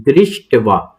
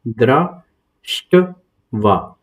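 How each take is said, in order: First: दृष्टवा said as one smooth word at normal pace; joined pronunciation. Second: दृष्टवा stretched out very slowly, syllable by syllable; slow syllable split. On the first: Teacher giving the joined form of दृष्टवा to students. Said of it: "इस तरीके से देख सकते हैं". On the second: Teacher spelling out दृष्टवा very slowly for students. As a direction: sound out दृष्टवा very slowly for the learner. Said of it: "आप इस तरीके से पढ़ सकते हैं". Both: Shown as a demonstration.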